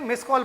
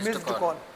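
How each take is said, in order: First: The d sound after miss is dropped. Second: The d sound after miss is pronounced. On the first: The speaker calls it wrong. "गलत बोलते हैं" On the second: The speaker calls it right. "बोला कहता है मिस्ड call"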